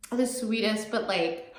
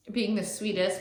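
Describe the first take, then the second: First: "The sweetest" through real tears, a little higher, laughing; tearful laugh. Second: Said in the usual way. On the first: Real, not acted. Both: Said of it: "sorry, I am crying a little".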